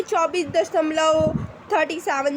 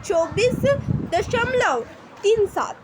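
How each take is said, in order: First: चौबीस दशमलव थर्टी सेवन, with the decimals read as one whole number; wrong reading. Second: चौबीस दशमलव तीन सात, with तीन and सात read as separate digits, said higher; correct reading, digit by digit. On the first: Teacher showing students the wrong way to read decimals. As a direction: read the part after the point as थर्टी सेवन. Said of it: "ऐसे नहीं पढ़ेंगे". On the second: Teacher showing students the right way to read decimals, digit by digit. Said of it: "ऐसे पढ़ेंगे आप". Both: Shown as a demonstration.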